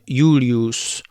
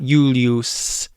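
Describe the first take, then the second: First: The s is retracted, almost toward sh. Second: The s is a sharp front s sound. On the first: The speaker calls it right. "more of a retracted S, which you put your tongue farther back in your mouth" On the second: The speaker calls it wrong. "It's not Julius. It's not way up here"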